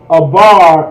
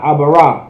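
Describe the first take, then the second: First: The word ends on the r, no final vowel. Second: The word ends with an extra ah vowel. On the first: The speaker calls it right. "it's pronounced Abar" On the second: The speaker calls it wrong. "and not Abara"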